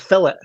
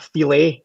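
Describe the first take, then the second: First: The word is said in an English style. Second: The word is said in a French style. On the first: It is the plain English version. The speaker calls it right. "It's a it's a fillet" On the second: It is the pretentious American version. The speaker calls it wrong. "why Americans insist on calling it a filet"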